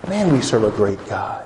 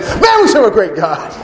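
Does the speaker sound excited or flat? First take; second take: flat; excited. First: It is said in a flat, unexcited voice. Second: It is said in a loud, excited voice. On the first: The speaker is not truly moved by it. The speaker calls it wrong. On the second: The speaker is truly thrilled about it. The speaker calls it right.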